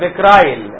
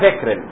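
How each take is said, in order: First: The second vowel sounds like 'eye'. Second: The second vowel sounds like 'ee'. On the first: Some people prefer this foreign-sounding form. "زي البعض ما بيحب كده" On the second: This is the ordinary local way to say it. "الخيوط اسمها فيكرين"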